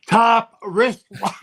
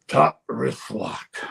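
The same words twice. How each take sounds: First: Higher, louder, slow "Top wrist lock"; loud command. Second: Slow, deliberate wrestling call; slow command. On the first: Trainer repeating "Top wrist lock" into Bob's face, louder. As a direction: bark the hold right in his face. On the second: Trainer slowly calling "Top wrist lock" to Bob. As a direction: spell out the hold slowly, level-voiced. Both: Retold or imitated. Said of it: "To my face".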